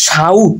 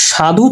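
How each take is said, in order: First: সাউথ as shaudh, u before final consonant; inserted short u. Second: Said in the usual way. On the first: Shown as a demonstration. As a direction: glide from a to u in সাউথ. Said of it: "মাঝখানে কিন্তু রস্য চলে আসছে". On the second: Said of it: "এই যে মাঝখানে কিন্তু রস্য".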